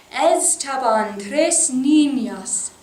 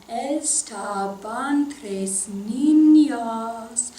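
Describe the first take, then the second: First: Said in the usual way. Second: "estaban tres niñas" very slow, syllables held to the beat; spoken in rhythm. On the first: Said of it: "saying that all together". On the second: Shown as a demonstration. Teacher leads singers speaking the lyric, in slow rhythm. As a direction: stretch "estaban tres niñas" out in strict musical time. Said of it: "Let's speak this in rhythm".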